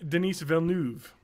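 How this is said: The name is said with French-style sounds. The speaker calls it right. "now I know how to do it. It's French"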